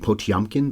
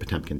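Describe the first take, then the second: First: The middle syllable sounds like 'tyom'. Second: The middle syllable sounds like 'tem'. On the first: "apparently the pronunciation can be Potiomkin" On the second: "we're going to say Potemkin today"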